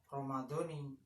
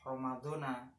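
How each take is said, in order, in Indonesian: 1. Kata ini diakhiri dengan vokal i. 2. Kata ini diakhiri dengan vokal a. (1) "alamat jarnya yaitu pakai kasroh"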